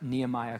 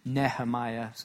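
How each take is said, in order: First: The name has its usual English pronunciation. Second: The name has a Hebrew pronunciation.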